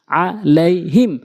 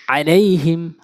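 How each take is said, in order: First: Each syllable set apart; slow demo. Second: Syllables joined into one word; quick reading. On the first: Teacher repeating so learners can follow, slowly. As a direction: break the word into slow pieces. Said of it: "slow বলছি এই জন্য". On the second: Teacher showing learners the joined reading, quickly. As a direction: read it briskly in one go. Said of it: "দ্রুতটা উচ্চারণ করতে হবে". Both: Shown as a demonstration.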